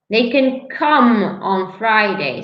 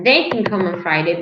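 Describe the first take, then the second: First: The stress is on the word come. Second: The stress is on the word they. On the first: It is about the action. "You're stressing the action" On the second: It is about a specific person. "So if I stress they"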